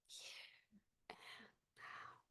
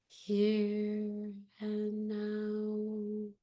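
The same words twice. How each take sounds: First: It is said in a whisper. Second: It is said in a normal voice.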